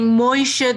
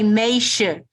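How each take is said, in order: First: The first vowel is pronounced 'oy'. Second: The first vowel is pronounced 'ay'. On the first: This is the usual pronunciation elsewhere. "instead of saying Moishe" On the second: This marks a speaker from Vilna. "they would say Meishe"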